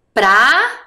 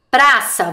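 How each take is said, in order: First: Praça split slowly as pra-ça; syllable by syllable. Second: Said in the usual way. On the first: Shown as a demonstration. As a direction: sound out Praça one syllable at a time. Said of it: "Vamos comigo?". (lendo Praça sílaba por sílaba) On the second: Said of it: "Próxima palavra era qual?".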